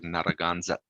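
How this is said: The word is said with Spanish-style sounds.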